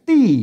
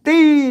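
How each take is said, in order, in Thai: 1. เป็นเสียงเอกปกติของภาษาไทยกลาง 2. เป็นเสียงวรรณยุกต์พิเศษของภาษาถิ่นเหนือ (1) "เสียงโทปกตินะ" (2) "มันเสียงอันโทพิเศษโทเมือง"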